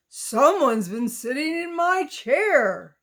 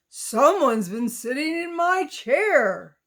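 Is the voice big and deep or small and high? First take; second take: big and deep; big and deep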